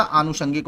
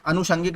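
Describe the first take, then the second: First: आनुषंगिक said with a long opening आ; the correct आनुषंगिक, long आ held at the start; correct form. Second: अनुषंगिक said with a short opening अ; अनुषंगिक demonstrated with a short first vowel, as the wrong form; the incorrect अनुषंगिक, short अ at the start. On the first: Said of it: "आनुषंगिक होता है". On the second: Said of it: "अनुषंगिक नहीं होता". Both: Shown as a demonstration.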